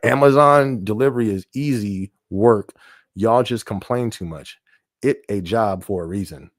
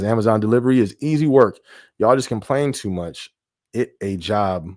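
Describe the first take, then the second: First: It is read more slowly. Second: It is read at normal speed.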